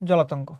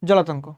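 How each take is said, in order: Both takes have the same delivery.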